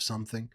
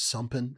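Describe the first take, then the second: First: The final -ing sound is said fully and normally. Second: The final -ing sound is altered, not fully said. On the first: This is the usual adult pronunciation. "instead of" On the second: This is how a small child says it. "she doesn't say any of her ing"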